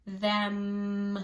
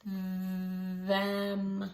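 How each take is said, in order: First: Short Them with a closing hum; teacher shows lips closing on Them; them said quickly, lips pressed on the m. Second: Them stretched out long and slow; said slowly. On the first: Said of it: "press my lips together like that". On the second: Teacher stretches the word Them for the class. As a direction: draw out Them, each sound held. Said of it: "say it slowly". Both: Shown as a demonstration.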